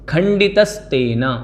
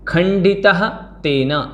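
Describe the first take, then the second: First: The two words are fused into one joined form. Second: The two words are split with full word endings.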